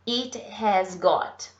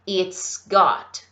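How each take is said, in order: First: The words it has are said in full. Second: The words it has are contracted to it's.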